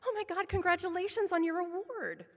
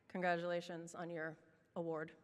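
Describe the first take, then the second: First: It is said in an excited tone. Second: It is said in a sarcastic tone.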